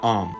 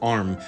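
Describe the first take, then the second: First: The R sound after the vowel is dropped. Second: The R sound after the vowel is pronounced. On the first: "and not om" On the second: "pronounce that word arm"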